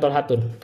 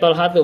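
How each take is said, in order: First: The name ends with an added n sound. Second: The name ends in a plain vowel, no n. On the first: The speaker calls it wrong. "bukan Talhatun" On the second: The speaker calls it right. "bacanya Talhatu"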